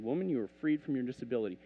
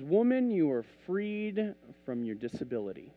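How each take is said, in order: First: Fast, matter-of-fact repeat; quick retelling. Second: Unhurried, declared with weight; measured pronouncement. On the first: Retold or imitated. Preacher retelling his prayer over her, quick. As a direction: run it off briskly in one go. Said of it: "I looked at her and I said". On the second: Acted. Jesus to the bent woman, measured pronouncement. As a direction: draw out FREED as a pronouncement. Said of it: "Jesus looks at her and he says".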